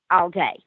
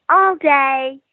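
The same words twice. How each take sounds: First: Said in the usual way. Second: Put-on high, louder little girl voice; the child ghost calling out; eerie child voice, louder. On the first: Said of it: "The second one was". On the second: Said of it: "all you could hear clearly from her was".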